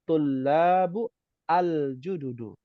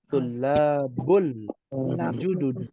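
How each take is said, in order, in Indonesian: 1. Kata-katanya diucapkan terpisah dengan akhiran yang jelas. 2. Kata-katanya disambung tanpa jeda. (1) "kalau nggak disambung" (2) "disambung karena ketemu alif lam ya"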